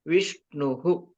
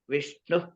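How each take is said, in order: First: It ends in h followed by an echo vowel. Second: It ends in a bare breathy h sound. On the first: "you add the swara to visarga" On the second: "it is just h"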